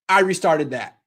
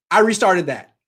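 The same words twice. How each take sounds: The two takes are said the same way.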